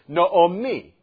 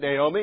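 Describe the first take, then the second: First: It is said the Hebrew way. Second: It is said the usual English way. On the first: The speaker calls it right. "That's how the Hebrew pronunciation is" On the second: The speaker calls it wrong. "we pronounce it Naomi"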